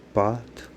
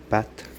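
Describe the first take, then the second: First: "patte" said like "pâte", with a back A; back vowel A. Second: "patte" with a front open A; front vowel A. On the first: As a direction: say "patte" with the tongue pulled back on the A. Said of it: "postérieure". (« patte » prononcé « pâte », avec un A postérieur) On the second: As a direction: say "patte" with the tongue forward on the A. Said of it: "antérieure". (« patte » avec un A antérieur) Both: Shown as a demonstration.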